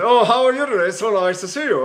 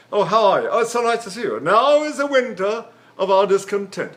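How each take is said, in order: First: Imitated English Shakespearean actor, teeth together; clenched-teeth English actor. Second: Imitated English stage voice, words in the pharynx; relaxed-mouth English actor. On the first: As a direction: talk English-actor style through closed teeth. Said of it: "They put their teeth together like this". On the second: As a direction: loosen the mouth and speak as an English Shakespearean. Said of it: "relax your mouth and you keep the words pronounced in the pharynx".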